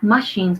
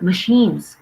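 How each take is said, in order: First: The stress is on the first syllable. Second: The stress is on the second syllable. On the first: The speaker calls it wrong. "Not machines" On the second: The speaker calls it right. "the stress is on the second syllable"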